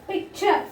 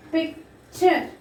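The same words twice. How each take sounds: First: Said in the usual way. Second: PICTURE broken in two, pic, pause, ture; split into syllables. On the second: Shown as a demonstration. Teacher showing children the two sounds, PICTURE split as pic, ture. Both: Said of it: "Two sounds we are getting".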